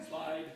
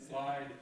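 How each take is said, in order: No difference in how they are said.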